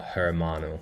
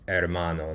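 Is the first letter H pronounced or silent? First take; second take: pronounced; silent. First: The word starts with an audible H sound. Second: The word starts with no H sound. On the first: The speaker calls it wrong. "not hermano, with with a H sound" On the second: The speaker calls it right. "It's silent"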